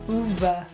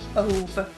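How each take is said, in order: First: The first vowel sounds like 'oo' in moon. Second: The first vowel sounds like 'uh' in love. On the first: The speaker calls it right. "it's actually pronounced Uve, like this" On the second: The speaker calls it wrong. "I actually read it as Ove, right? Like love"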